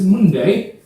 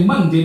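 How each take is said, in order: First: "Monday" with an oo vowel, like MOON-day; Cockney Monday. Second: Said in the usual way. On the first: Shown as a demonstration. Trainer shows how Cockneys say it, "Monday" as "Moonday". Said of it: "they say Monday". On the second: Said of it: "they would always not say Monday".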